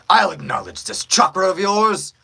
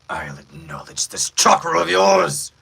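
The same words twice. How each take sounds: First: The voice is at a higher, usual pitch. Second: The voice is pitched noticeably deeper. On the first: "the pitch I was typically around was right here" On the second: "you guys want to hear it deeper"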